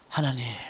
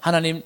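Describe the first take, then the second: First: It is read with deep, pleading emotion. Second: It is read flatly, without feeling.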